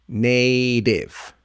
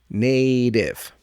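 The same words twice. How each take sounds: No difference in how they are said.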